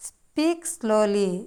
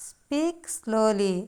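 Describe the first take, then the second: No difference in how they are said.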